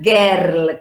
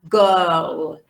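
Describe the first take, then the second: First: The vowel sounds like an e. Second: The vowel is a long schwa. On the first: The speaker calls it wrong. "it's not girl con E" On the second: The speaker calls it right. "it's like a long schwa"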